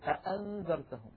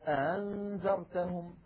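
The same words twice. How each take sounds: First: Both glottal stops are fully pronounced. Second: The second glottal stop is softened.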